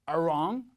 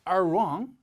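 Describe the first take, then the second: The two takes are said the same way.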